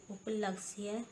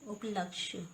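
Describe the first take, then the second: First: उपलक्ष्य as "uplaksiye"; wrong pronunciation. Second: उपलक्ष्य as "uplakshya"; correct pronunciation. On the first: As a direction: use s and an extra i in उपलक्ष्य. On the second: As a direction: close उपलक्ष्य on a tight ksh cluster. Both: Shown as a demonstration. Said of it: "व्यंजन गुच्छों की अशुद्धियाँ".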